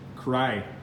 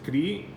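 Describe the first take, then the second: First: The vowel sounds like the y in sky. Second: The vowel sounds like the ee in see. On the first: "In English it's not cri, it's" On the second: "in Spanish it's"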